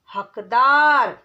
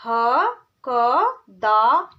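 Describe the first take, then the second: First: हकदार said whole and firm; whole word. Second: हकदार stretched very slowly into its syllables. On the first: Teacher blending हकदार for pupils. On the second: Teacher sounding out हकदार syllable by syllable. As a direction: break हकदार into slow syllables. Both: Shown as a demonstration. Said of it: "जैसे".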